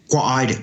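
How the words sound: The first word glides into one syllable, kwa. This is the northern regional way. "North Taranaki, our old people used to pronounce it kwa"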